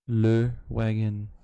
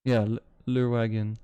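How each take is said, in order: First: "Le Wagon" said slowly with English vowels, no French accent; "Le Wagon" pronounced carefully English, no French lilt; not French. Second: Said in the usual way. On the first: Shown as a demonstration. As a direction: spell out "Le Wagon" slowly, avoiding any French sound. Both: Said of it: "I'm trying not to say it with a French accent".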